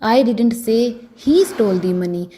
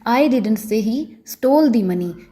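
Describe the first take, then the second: First: The word 'he' carries the stress. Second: The word 'stole' carries the stress. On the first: Someone else may have stolen it. "अगर मैं ही पर जोर डालकर बोलूंगी" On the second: The money may have been taken without stealing. "अगर मैं stall पर stress डालकर बोलूँगी"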